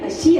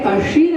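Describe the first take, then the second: First: The sh sound is palatal, tongue flat forward. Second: The sh sound is retroflex, tongue curled back. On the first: The speaker calls it right. "अशी आहे" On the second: The speaker calls it wrong. "तर ते अशी नाहीये"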